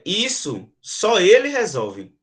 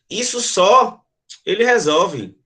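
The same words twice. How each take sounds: First: The pause comes after the word 'isso'. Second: The pause comes after the word 'só'. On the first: Only he can solve this. "está dizendo que isso apenas ele resolve" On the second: Only this is something he can solve. "está dizendo que apenas isso ele resolve"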